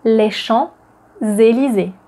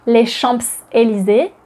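First: Les Champs-Élysées with no P, shon-zay-lee-zay, slow; silent P. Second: Les Champs-Élysées with the P sounded, champs-p-élysées; pronounced P. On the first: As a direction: drop the P in Champs-Élysées, slowly. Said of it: "It's les Champs-Élysées". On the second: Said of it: "The P is not pronounced". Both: Shown as a demonstration.

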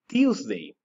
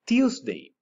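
First: Said in the usual way. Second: "Tuesday" sung out much higher, falling to the end; high teacher model. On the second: Shown as a demonstration. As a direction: lift "Tuesday" high for the class to echo. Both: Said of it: "Repeat after me".

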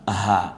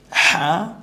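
First: হা let out freely from the throat, lower; released ha. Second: হা pressed in the throat, high and loud. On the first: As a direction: breathe the ha out with no pressure. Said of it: "এই হাটা গলায় ছেড়ে দিয়ে". (গলা ছেড়ে দিয়ে হা) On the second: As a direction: squeeze the ha from the throat. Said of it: "এই হাটা গলায় চাপ দিয়ে". (গলায় চাপ দিয়ে হা) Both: Shown as a demonstration.

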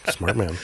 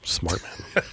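First: Chuckling through the words; laughing. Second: Hushed dry whisper; whispered aside. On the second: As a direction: murmur the compliment under your breath. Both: Real, not acted. Teasing guest about coffee.

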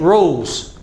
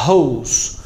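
First: Rose with a curled English R; rose, start on a curled R. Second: Hose with a breathy H, lower; hose, breathe out an H like Portuguese R; English H. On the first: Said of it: "Então, letra R". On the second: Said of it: "Letra H". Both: Shown as a demonstration.

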